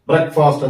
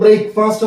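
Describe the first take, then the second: First: The word is said the standard way. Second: The word is said the common Indian way. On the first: The speaker calls it right. "ബ്രേക്ക്ഫാസ്റ്റ് ബ്രേക്ക്ഫാസ്റ്റ് എന്നാണ് ഉച്ചാരണം" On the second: The speaker calls it wrong. "നമ്മൾ ബ്രേക്ക്ഫാസ്റ്റ് എന്നൊക്കെയാണ് ആളുകൾ പറയുക"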